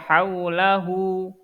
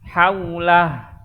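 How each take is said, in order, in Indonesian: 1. Kata ini diakhiri dengan vokal u tambahan. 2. Kata ini diakhiri konsonan, tidak ada vokal akhir. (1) "nggak dibaca haulahu" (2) "jadi sukun"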